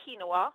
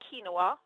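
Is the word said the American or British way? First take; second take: American; American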